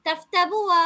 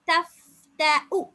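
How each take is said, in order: First: தஃப்தபுவா with a stretched வா; wrong reading. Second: தஃப்தஉ very slow, ending on a short உ; slow recitation. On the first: Teacher voicing the students' wrong reading. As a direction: say தஃப்தபுவா questioningly as the mistake. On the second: Teacher modelling the hamza ending for students. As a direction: chant தஃப்தஉ slowly, with no வ. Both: Shown as a demonstration. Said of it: "தஃப்தபு அல்ல".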